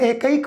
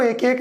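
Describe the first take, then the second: First: One joined word, the second vowel an 'ai'. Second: Two separate words, the second with a plain 'e'. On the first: The speaker calls it right. "मैं एकैक बोल रहा हूं" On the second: The speaker calls it wrong. "मैं इसको एक एक नहीं बोल रहा हूं"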